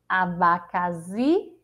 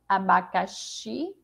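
First: The x sounds like a z. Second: The x sounds like sh. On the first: The speaker calls it wrong. "xi é o som do Z" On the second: The speaker calls it right. "É o som do CH"

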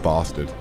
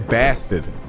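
First: It is said with a British accent. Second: It is said with an American accent.

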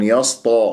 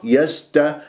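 First: The s and t sound heavy and emphatic. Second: The s and t sound light and plain. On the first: The speaker calls it wrong. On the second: The speaker calls it right.

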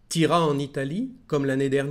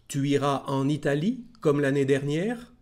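First: It is said casually, with the first word shortened. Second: It is said slowly and carefully, every word full. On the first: "como lo diría en francés" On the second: "Primero lo voy a leer, lo de siempre, tranquilo"

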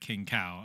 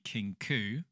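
First: The word ends with an 'ow' sound. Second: The word ends with an 'oo' sound. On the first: The speaker calls it wrong. "and not the Kinkau" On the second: The speaker calls it right. "it's actually pronounced the Kinku"

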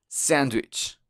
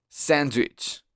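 No difference in how they are said.

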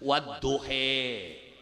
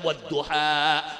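First: The word ends in an 'e'-like vowel. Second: The word ends in a clear 'a' vowel. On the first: This is another accepted reading. "wacane sejen" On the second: This is the usual local reading. "Kita wacane"

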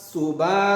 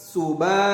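Both takes have the same delivery.

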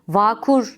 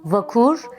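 First: A vowel in the word is drawn out long. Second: All vowels in the word are kept short. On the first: The speaker calls it wrong. "Uzatılmayıp kısa söylenmesi gereken" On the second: The speaker calls it right. "kısa söylenmesi gereken"

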